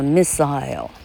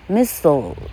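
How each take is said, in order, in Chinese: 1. 这是用英式发音读的。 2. 这是用美式发音读的。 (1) "英国音叫做missile" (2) "是美国音哈"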